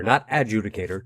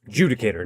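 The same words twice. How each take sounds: First: Adjudicator said as ad-JOO-dih-kay-tor; wrong pronunciation. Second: Adjudicator said as uh-JOO-dih-kay-tor; right pronunciation. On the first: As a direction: adjudicator with a stressed ad start. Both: Shown as a demonstration.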